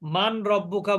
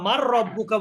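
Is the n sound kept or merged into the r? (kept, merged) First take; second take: kept; merged. First: The n sound is pronounced before the r. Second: The n sound merges into a doubled r. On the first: "অথবা আপনি এভাবেও পড়তে পারেন মান রব্বুকা" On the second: "নুন সাকিনের পরে র আসলে এদগম করা যায়"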